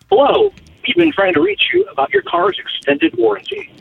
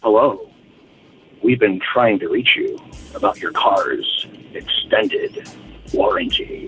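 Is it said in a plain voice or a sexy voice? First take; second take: plain; sexy. First: It is said in a plain, ordinary voice. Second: It is said in a sultry, sexy voice.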